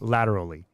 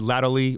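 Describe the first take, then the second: First: The R sound in the word is pronounced. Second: The R sound in the word is dropped.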